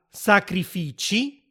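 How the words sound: The last consonant sounds like 'ch'. "e la parola sacrifici"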